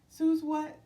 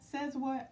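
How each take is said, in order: First: The first word has a long oo vowel. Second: The first word has a short e vowel. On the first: This is the speaker's habitual pronunciation. "I always pronounce it Suze" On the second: This is probably the channel owner's own pronunciation. "I think she says says what"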